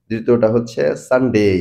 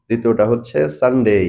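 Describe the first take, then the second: Both takes have the same delivery.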